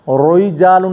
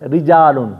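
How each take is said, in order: First: The r is pronounced heavy and full. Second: The r is pronounced thin and light. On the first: The speaker calls it wrong. "रोइजालुन नहीं" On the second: The speaker calls it right. "बल्कि रिजालुन ... बारीक पढ़े में अची वेंदो"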